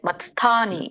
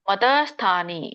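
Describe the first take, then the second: First: The t joins the s with no vowel. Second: A vowel separates the t from the s. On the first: The speaker calls it right. "ವ್ಯಂಜನ ಇದೆ ಅಲ್ಲಿ" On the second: The speaker calls it wrong. "ಮತಸ್ಥಾನಿ ಅಲ್ಲ"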